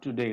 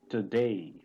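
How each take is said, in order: First: The last vowel is one steady sound. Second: The last vowel glides from a to e. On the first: The speaker calls it wrong. "this is not today" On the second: The speaker calls it right. "it's today"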